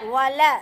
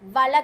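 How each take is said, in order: First: The first sound is made with rounded lips. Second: The first sound is made with unrounded lips. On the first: The speaker calls it right. "வாவ் வந்து வாயை குவிச்சு சொல்வது" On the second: The speaker calls it wrong. "இப்படி சொல்லக்கூடாது"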